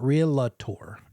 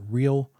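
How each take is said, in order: First: It has three syllables, with an extra middle vowel. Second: It has two syllables, with no extra vowel. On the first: The speaker calls it wrong. "It's not realtor" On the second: The speaker calls it right. "there's only one A in realtor"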